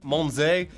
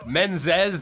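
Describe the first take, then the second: First: The name is said with a French pronunciation. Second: The name is said with a Spanish pronunciation. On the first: "the French pronunciation"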